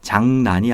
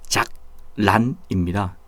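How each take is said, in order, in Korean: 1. 가운데 자음은 'ng'와 'n' 소리로 납니다. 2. 가운데 자음은 'k'와 'r' 소리로 납니다. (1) "장난이 아니라" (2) "기역의 리을 기역 받침이고 리을로 시작하는데요"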